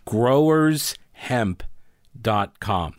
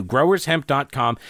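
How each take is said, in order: First: Slow, carefully spelled out; over enunciating. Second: Said in the usual way. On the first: Shown as a demonstration. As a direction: say each word slowly and clearly. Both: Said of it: "I'm gonna say it very slowly for you".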